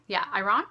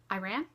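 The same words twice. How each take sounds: First: "Iran?" said as ih-RON, rising and doubtful; unsure pronunciation. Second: "Iran?" said as eye-RAN, rising like a question; unsure pronunciation. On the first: Booktuber second-guessing herself, trying ih-RON for Iran. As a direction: try "Iran?" as ih-RON with a questioning rise. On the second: Booktuber unsure how to pronounce Iran, testing eye-RAN. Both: Shown as a demonstration. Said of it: "I'm not sure, actually".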